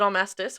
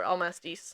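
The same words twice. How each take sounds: First: ALMASTIS with an "al" start and short "tiss" ending; Almastis as al-MASS-tiss. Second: ALMASTIS with an "el" start and long "teess" ending; Almastis as el-MASS-teess. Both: Shown as a demonstration. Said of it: "Is it Almastis or Almastis?".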